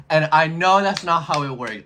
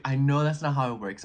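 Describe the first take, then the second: First: Louder, higher "And I know that's not how it works"; loud insistent "And I know that's not how it works"; emphatic admission. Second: Said in the usual way. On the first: Real, not acted.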